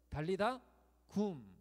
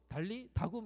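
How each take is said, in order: First: The break comes after the third syllable. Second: The break comes after the second syllable. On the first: The speaker calls it right. "달리다 굼 이렇게 예수님 말씀을 하셨다는 거예요" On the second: The speaker calls it wrong. "앞으로 달리 다굼 이렇게 하시면 안 돼요"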